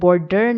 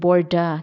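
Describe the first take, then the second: First: The d has no breath after it. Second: The d has a light puff of breath. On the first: The speaker calls it wrong. "मैं बॉर्डर नहीं कह रही" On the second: The speaker calls it right. "बोर्डा कह रही हूँ। ... हल्की सी ह sound आ रही है"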